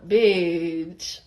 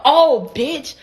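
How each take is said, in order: First: Low, drawn-out, offhand "bitch"; casual "bitch". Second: Lively, pitched-up "Oh, bitch"; confrontational "bitch". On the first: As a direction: drop it low and long, no big deal. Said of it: "It was like a". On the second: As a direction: say it as a real insult, with punch. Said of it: "But it wasn't like a". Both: Shown as a demonstration.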